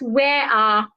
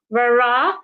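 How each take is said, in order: First: No R sound links the two words. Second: An R sound links the two words. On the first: The speaker calls it wrong. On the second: The speaker calls it right. "do not forget the linking R"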